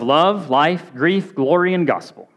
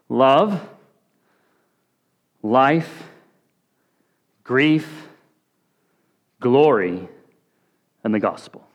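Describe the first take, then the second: First: The list is said at normal, quicker speed. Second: The list is said slowly.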